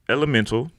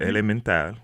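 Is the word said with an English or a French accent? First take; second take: English; French. First: It is said with an English accent. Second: It is said with a French accent.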